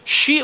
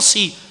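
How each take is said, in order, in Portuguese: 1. A sílaba começa com som de sh. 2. A sílaba começa com som de s simples. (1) "ele significa sh" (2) "ele significa s"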